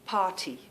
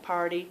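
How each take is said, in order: First: The middle consonant is a clear T sound. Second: The middle consonant is a soft D sound. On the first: "we say" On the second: "There's a D in there"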